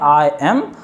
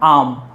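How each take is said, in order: First: It is said as two separate full words. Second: It is said as one contracted syllable. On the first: "हम इसका pronunciation जो होगा वो हम बोलेंगे" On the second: "इसको हम प्रोनाउंस करते हैं तो बोलते हैं"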